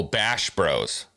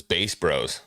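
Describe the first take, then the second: First: "Bash" with short a and sh; "Bash Bros", drawn out with a clear sh; corrected pronunciation. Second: "Bass" said like "base"; "Bass Bros" as in bass guitar; mistaken pronunciation. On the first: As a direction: say "Bash" slowly, rhyming with "cash". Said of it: "No, Bash Bros". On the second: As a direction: say "Bass" with a long ay and final s. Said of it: "I thought it was Bass Bros". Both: Real, not acted.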